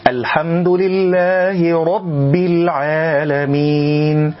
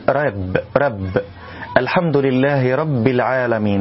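First: Slow, higher chant with a full, dark "ro" in "رب"; heavy ra. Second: "رب" as a light, fronted "rebb"; thin ra. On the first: Reciter models for learners, ra at full heaviness. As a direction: recite "رب" with a thick back-coloured r. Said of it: "بتفخيم الراء". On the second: Teacher imitates a mistake for learners, ra left light. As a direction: flatten the r and a of "رب" without any heaviness. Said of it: "عدم تفخيم الراء من كلمة رب". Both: Shown as a demonstration.

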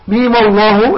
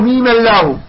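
First: "ميم الله" joined as "mima-lloh", thick lam; heavy lam. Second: "ميم الله" joined with thin "llaahu"; wrongly light lam. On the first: Teacher models the joined reading, heavy lam in "الله". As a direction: slowly link "ميم" to a dark, rounded "الله". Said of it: "حتى نفخم ال". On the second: Teacher shows what not to say, thin "الله". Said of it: "لا نقول ميم الله". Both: Shown as a demonstration.

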